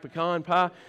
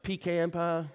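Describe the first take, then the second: First: Pecan is said the local regional way. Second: Pecan is said the northern regional way. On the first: The speaker calls it right. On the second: The speaker calls it wrong.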